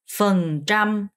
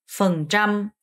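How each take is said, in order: Both takes have the same delivery.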